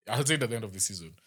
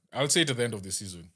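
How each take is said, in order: Both takes have the same delivery.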